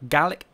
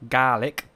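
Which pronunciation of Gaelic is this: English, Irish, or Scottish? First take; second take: English; Scottish. First: The word is said the usual English way. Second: The word sounds like garlic without the r. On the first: "Gaelic in English is pronounced just how I'm saying it" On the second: "in Scottish it's pronounced Gaelic. Right. So think garlic without the R"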